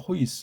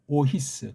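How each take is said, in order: First: It starts with h and the two vowels form one syllable. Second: It starts with a vowel and the two vowels are split. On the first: The speaker calls it wrong. "이걸 호이스라고 발음하잖아요" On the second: The speaker calls it right. "이건 오히스 그렇게 발음해야 돼"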